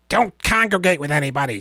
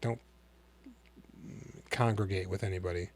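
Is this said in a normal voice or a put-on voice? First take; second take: put-on; normal. First: It is said in an imitated character voice. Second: It is said in the speaker's ordinary voice.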